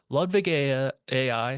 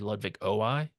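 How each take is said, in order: First: The letter is said like the letter A. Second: The letter is said like the letter O. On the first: The speaker calls it wrong. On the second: The speaker calls it right.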